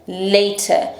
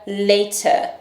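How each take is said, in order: No difference in how they are said.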